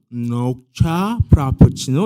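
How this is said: 녹차 is twisted into a foreign-sounding pronunciation.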